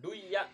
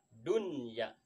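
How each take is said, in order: First: The n sound is merged into the y. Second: The n sound is clearly pronounced before y. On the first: The speaker calls it wrong. "jangan duya" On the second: The speaker calls it right. "tapi idhar tetap dibacanya dunya"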